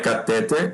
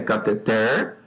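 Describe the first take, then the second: First: The stress falls before the last syllable. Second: The stress falls on the last syllable. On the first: The speaker calls it wrong. "Não é catéter" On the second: The speaker calls it right. "é cateter, é oxítona"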